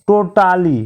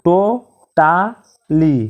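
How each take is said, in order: First: Said in the usual way. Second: টোটালি drawn out slowly as to-ta-li; slow split of টোটালি after the normal take; syllable by syllable. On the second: Shown as a demonstration. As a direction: break টোটালি into three slow beats. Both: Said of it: "তিনবার উচ্চারিত শব্দ".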